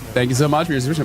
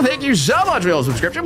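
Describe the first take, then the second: First: It is said in the speaker's natural voice. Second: It is said in a put-on character voice.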